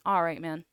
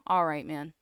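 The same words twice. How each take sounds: The two takes are said the same way.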